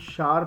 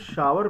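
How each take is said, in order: First: The word is said as one syllable. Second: The word is said as two syllables. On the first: The speaker calls it right. "इसे हम शार pronounce करते हैं" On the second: The speaker calls it wrong. "इसे हम शावर pronounce नहीं करते"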